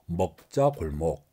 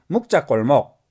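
First: The first syllable has the vowel 'eo', Seoul style. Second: The first syllable has the vowel 'u', Busan style. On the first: "서울 사람들은 먹자골목" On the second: "부산 사람들은 묵자골목 이렇게 발음합니다"

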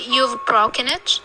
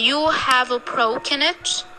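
First: The word 'have' is shortened to a single consonant. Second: The word 'have' is said in full. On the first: The speaker calls it right. "we say" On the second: The speaker calls it wrong. "instead of saying"

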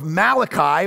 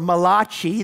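First: The name is said with an English pronunciation. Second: The name is said with an Italian-style pronunciation.

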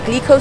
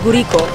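First: The word has a clear L sound after the G. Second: The word has no L, with a vowel after G. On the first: "They call it the Glico sign" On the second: "we just don't have the L sound. So they call it Guriko"

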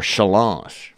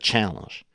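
First: The word has a French-style pronunciation. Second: The word has an ordinary English pronunciation.

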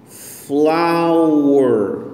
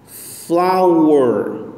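The two takes are said the same way.

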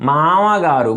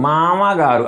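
The two takes are said the same way.

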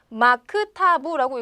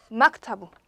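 First: The k is said as a separate syllable. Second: The k closes the first syllable. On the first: "마크타부라고 읽어도 되지만" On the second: "빠르게 읽게 되면 당연히 얘는 받침으로 발음이 나게 돼 있어요"

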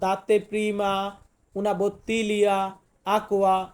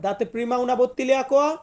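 First: It is said with a Bengali accent. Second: It is said with an Italian accent. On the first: The speaker calls it wrong. "এখন আপনি বাংলার মতো তো আর বললে হবে না" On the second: The speaker calls it right. "আপনাকে ফার্স্ট বলতে হবে"

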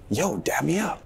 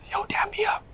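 First: It is said in an insulted, offended tone. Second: It is said in a neutral, casual tone.

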